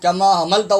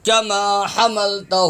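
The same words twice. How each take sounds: First: کما حملتہ spoken quickly with a weak h; wrong reading. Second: کما حملتہ slowly chanted with a strong throat h; correct recitation. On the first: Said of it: "نہیں ہے". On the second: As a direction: draw out the long vowels of کما حملتہ, clear haa. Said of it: "یہ ہا زبر ہا ہے". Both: Shown as a demonstration.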